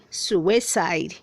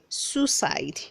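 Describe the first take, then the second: First: The word is said with three syllables. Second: The word is said with two syllables. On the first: The speaker calls it right. "The word has three syllables" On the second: The speaker calls it wrong. "not two"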